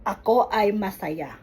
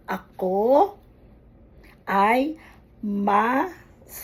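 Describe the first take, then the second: First: "Ako ay masaya" said as one flowing sentence, falling at the end; faster, joined up. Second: "ako ay masaya" spaced out slowly with long pauses and rising ends; slow, syllable by syllable. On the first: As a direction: run "Ako ay masaya" together without pauses. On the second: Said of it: "either make it slowly". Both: Shown as a demonstration.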